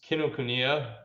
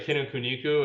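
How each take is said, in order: First: The name ends with a 'ya' sound. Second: The name ends with a 'ku' sound. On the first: The speaker calls it right. "I always say it's Kinokuniya is like the bookstore" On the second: The speaker calls it wrong. "but I always say Kinokuniku"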